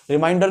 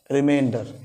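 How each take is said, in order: First: रिमाइंडर said the wrong way, with "ai" as in "mind"; wrong pronunciation. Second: रिमाइंडर said with "e" as in "remain", री-मेन-डर; correct pronunciation. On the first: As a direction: show the common mistake, रिमाइंडर as "री-माइंडर". (गलत उच्चारण, "माइंडर" वाला) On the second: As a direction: give the right form, रिमाइंडर as "रिमेंडर". (सही उच्चारण, "रिमेन" वाला) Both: Shown as a demonstration. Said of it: "बहुत से बच्चे इसको थोड़ा गलत बोल देते हैं".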